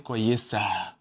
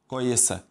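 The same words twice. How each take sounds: First: It is said slowly with exaggerated stress. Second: It is said quickly at a natural pace. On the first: The speaker calls it wrong. "we don't stress like that. We don't say" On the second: The speaker calls it right. "like normal speed"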